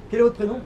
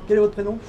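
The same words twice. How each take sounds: The two takes are said the same way.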